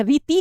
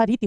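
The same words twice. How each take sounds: First: रीति with the final vowel stretched to "tee"; रीति mispronounced with a long last i; wrong long ending. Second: रीति with a short final i; रीति, long first vowel and short last one; correct short ending. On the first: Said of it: "रीति कुछ नहीं होता". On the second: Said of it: "रीति होता है". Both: Shown as a demonstration.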